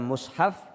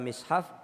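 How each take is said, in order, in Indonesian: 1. Suku kata pertama memiliki vokal u. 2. Suku kata pertama memiliki vokal i. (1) "Boleh dibaca mushaf" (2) "boleh dibaca mishaf"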